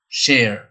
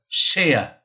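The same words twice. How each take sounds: First: An R sound is heard at the end. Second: No R sound is heard at the end. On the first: "l'américain, vous allez entendre ... le son R" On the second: "l'anglais, on va dire share. On n'entend pas le R"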